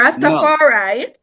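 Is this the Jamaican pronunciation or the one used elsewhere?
Jamaican. The name is said the Jamaican way. This is how it is said where the faith began. "the Jamaican pronunciation because of where it originated"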